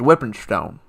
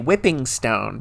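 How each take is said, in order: First: The final G of 'whipping' is dropped. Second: The final G of 'whipping' is clearly pronounced. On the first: This is the southern way of saying it. "with every second I become more southern" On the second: This is the northern way of saying it. "That's what the Northerners say"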